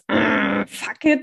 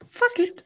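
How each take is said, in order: First: It is said heavily and forcefully. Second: It is said lightly and casually. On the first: Letting go with anger and strain. The speaker calls it wrong. "Es ist nicht so dieses Fuck it" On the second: Letting go easily without strain. The speaker calls it right. "es ist dieses leichte Fuck it"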